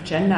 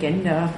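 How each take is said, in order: First: The word is pronounced as in English. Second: The word is pronounced as if it were German. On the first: The term is used neutrally and correctly. The speaker calls it right. "einen englischsprachigen Begriff, korrekt auszusprechen" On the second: The term is being mocked. The speaker calls it wrong. "einen kruden Begriff von Gender"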